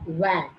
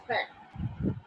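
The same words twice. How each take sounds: First: "Wag" said as vat, with a vibrating v; voiced V. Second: "Fat" with a soft, voiceless f; unvoiced F. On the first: Teacher showing stress and vibration, voiced V. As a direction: stress the buzzing first sound of "Wag" as vat. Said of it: "There is a vibration". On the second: Teacher showing a sound without vibration, unvoiced F. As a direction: start "Fat" on air alone, no vibration. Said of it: "no vibration". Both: Shown as a demonstration.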